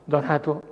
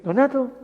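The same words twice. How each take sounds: First: A low, understated "Donato"; low-toned name. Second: Higher-toned name. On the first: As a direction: say "Donato" low and softly level. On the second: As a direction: say "Donato" higher and firmer, falling at the end. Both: Shown as a demonstration. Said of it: "El tono de voz".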